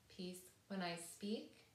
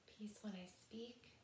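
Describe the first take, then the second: First: It is said at normal volume. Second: It is said more quietly.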